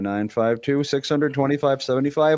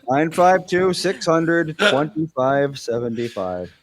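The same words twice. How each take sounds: First: The number is said at normal speed. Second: The number is said slowly.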